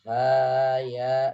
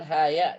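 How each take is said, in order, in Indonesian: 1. Vokal pada ha dibaca dua harakat. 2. Vokal pada ha dibaca pendek. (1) "harus dua harokat" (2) "jangan haya"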